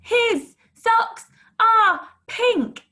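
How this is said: The sentence is shouted loudly. "Shout it"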